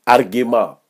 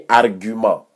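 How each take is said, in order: First: "argument" with the first vowel like "e", argue-MAH; mock the wrong "argument" as rgema; wrong pronunciation mocked. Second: "argument" with the rounded French "u", ar-gy-man; correct pronunciation. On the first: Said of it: "on dit pas". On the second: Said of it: "on dit argument". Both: Shown as a demonstration.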